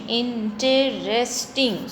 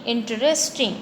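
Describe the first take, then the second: First: "interesting" said slowly as in-te-rest-ing; slow syllable split. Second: Said in the usual way. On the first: Shown as a demonstration. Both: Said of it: "So four syllables are there".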